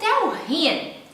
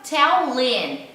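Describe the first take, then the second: First: The h in him is pronounced separately. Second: The h is dropped and the words linked.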